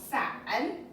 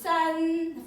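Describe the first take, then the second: First: The pitch dips down and then rises. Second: The pitch stays high and level. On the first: "down and up" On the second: "this is san flat"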